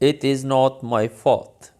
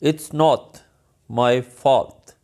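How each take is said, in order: First: "It is" is said as two separate words. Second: "It is" is joined into one syllable. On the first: "In English" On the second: "It is को जब मिलाएंगे तो it's not"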